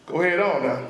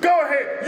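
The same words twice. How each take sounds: First: Low-pitched warning to an enemy; knowing, lowered-voice warning; warning go-ahead. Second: Uplifting go-ahead, full of praise; an offer of encouragement; encouraging. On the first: Shown as a demonstration. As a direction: dare them to carry on. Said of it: "it's like, like this". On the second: Retold or imitated. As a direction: cheer someone on. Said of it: "an offer of encouragement and praise".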